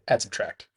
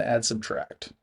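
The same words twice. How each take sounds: First: "add, subtract" quick and joined up; fast, run together. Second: Said in the usual way. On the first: Shown as a demonstration. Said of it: "say 'em really fast together so it sounds like one thing". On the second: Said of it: "say 'em really fast together".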